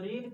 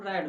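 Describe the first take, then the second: First: The vowel is long, like in 'reed'. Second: The vowel is short, like in 'red'. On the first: It is the base form of the verb. "रीड का third form" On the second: It is the third form of the verb. "Third form रैड होता है। तो रैड केवल पढ़ा जाता है"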